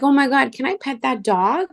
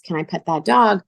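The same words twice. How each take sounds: First: Excited asking. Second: Said in the usual way. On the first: Retold or imitated. Woman gushing to a shop clerk about petting a puppy, high and excited. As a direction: squeal it out, thrilled at the puppy.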